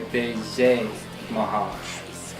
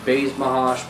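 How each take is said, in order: First: The name is said in a French-style way. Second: The name is said in an English-style way. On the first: The speaker calls it right. "my friend who speaks French told me that you're supposed to say like a" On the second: The speaker calls it wrong. "for the longest time, I've always said"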